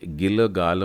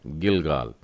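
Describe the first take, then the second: First: The first l sound is drawn out or voweled. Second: The first l sound is short and clipped. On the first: The speaker calls it wrong. "इसे गिलगाल मत पढ़िएगा" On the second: The speaker calls it right. "ल का उच्चारण छोटा हो गया"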